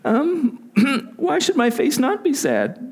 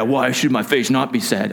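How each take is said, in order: First: It is said in a timid, fearful manner. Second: It is said in a tough, bold manner. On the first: The speaker is deathly afraid. The speaker calls it right. "He's afraid. Deathly afraid" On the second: The speaker feels confident and unafraid. The speaker calls it wrong. "this isn't like Arnold Schwarzenegger"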